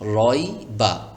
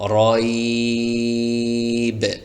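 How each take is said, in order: First: The word ends with a short vowel sound. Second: The word ends on a bare consonant sound. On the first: The reader continues without stopping. "তো আমরা এখানে এটা কিভাবে পড়লাম?" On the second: The reader stops at this word. "যদি আমরা এখানে ওয়াকফ করি বা থামি তাহলে এভাবে পড়তে হবে"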